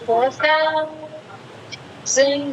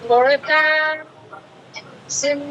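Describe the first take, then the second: No difference in how they are said.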